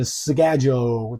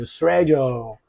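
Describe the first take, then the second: First: "schedule" starting with sk, SKED-jool; American "schedule" with an sk onset; American pronunciation. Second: "schedule" starting with sh, SHED-yool; British "schedule" with a sh onset; British pronunciation. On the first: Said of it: "美国我们就会念schedule". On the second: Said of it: "英国就会念schedule". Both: Shown as a demonstration.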